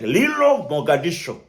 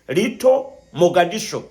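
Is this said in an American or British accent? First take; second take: American; British. First: It is said in an American accent. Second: It is said in a British accent. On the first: "I try to use American slang" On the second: "my former English, uh, which is British English"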